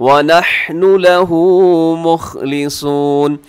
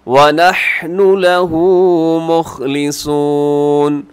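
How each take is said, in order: Both takes have the same delivery.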